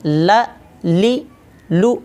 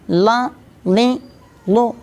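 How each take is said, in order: First: ल, ली, लू said clean with no sound in the nose; plain correct way. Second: ला, ली, लू pushed through the nose, pitched up; nasalised lam syllables, the wrong way; wrong nasal way. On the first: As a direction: model the right ल ली लू, simple and clear. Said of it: "बिल्कुल सादा अल्फाज में". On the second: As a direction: show the mistake: nasal ला ली लू. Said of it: "कुछ लोग नाक में आवाज़ ले जाते हैं". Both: Shown as a demonstration.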